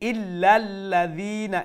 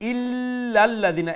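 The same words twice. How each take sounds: First: The opening 'il' sound is kept short. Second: The opening 'il' sound is drawn out long. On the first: The speaker calls it right. "এইরকম হবে" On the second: The speaker calls it wrong. "এরকম হবে না"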